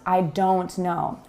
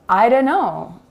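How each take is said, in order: First: The T is clearly pronounced in each word. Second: The T is dropped and the words link together. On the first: The speaker calls it wrong. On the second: The speaker calls it right. "we lose the T when we speak naturally and link sounds together. We say"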